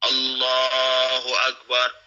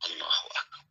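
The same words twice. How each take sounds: First: It is said loudly and clearly. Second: It is said softly, barely audible. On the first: The prayer leader says it. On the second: A follower in prayer says it.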